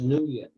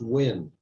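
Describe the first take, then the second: First: The name begins with an 'ng' sound. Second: The name begins with a 'w' sound. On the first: The speaker calls it wrong. "I always thought it was pronounced Nguyen" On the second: The speaker calls it right. "I learned a couple of months ago it's pronounced Win"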